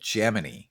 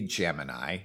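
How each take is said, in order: First: The name is said the astronauts' way. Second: The name is said the everyday modern way. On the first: This is how the mission crews said it. "They said Gemini" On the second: This is not how the mission crews said it. "they did not say Gemini"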